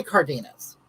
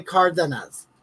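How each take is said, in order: First: Cardenas read out the English way, letter by letter; sounded-out English. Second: Cardenas imitated the Spanish way, with a tapped r and stress on the first syllable; Spanish pronunciation. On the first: Shown as a demonstration. Explaining to viewers that she says Cardenas the English way. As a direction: sound out Cardenas plainly, with no Spanish accent. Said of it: "I say Cardenas 'cause I sound it out".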